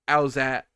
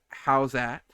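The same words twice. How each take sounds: First: The phrase is slurred into an even shorter form. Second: The phrase is clipped and partly run together. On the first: "Then like uh" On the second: "That got shortened to"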